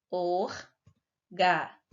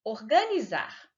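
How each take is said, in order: First: "Organizar" slowly split into or, ga, ni, zar; slow sounding-out of "Organizar" with pauses; syllable by syllable. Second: Said in the usual way. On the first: Shown as a demonstration. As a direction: break "Organizar" into four separate syllables. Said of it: "a sílaba tônica é a última sílaba". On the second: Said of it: "pronunciamos com mais força".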